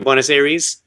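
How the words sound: It is said with an American pronunciation. "The Americans will say"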